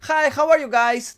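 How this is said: It is said in a relaxed, casual way. "como una cosa más relajada"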